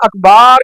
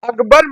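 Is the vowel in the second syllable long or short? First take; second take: long; short. First: The second syllable has a drawn-out vowel. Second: The second syllable has a short vowel. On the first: The speaker calls it wrong. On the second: The speaker calls it right.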